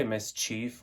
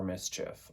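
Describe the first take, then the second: First: "mischief" ending like "chief"; long-ee pronunciation. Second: "mischief" with a short, clipped "chif" ending; short-i pronunciation. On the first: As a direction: say "mischief" as MIS-cheef, long ee. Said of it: "Do people say mischief or mischief?". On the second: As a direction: say "mischief" as MIS-chiff, short i. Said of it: "I say mischief". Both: Shown as a demonstration.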